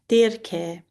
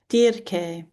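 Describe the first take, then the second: First: The name is pronounced the ancient Greek way. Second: The same.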